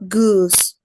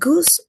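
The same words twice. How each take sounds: First: The vowel is long and relaxed. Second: The vowel is short and tense. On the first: This is not the Scottish English way. "not goose" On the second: This is the Scottish English way. "In Scottish English, the U vowel is typically shorter but more tense"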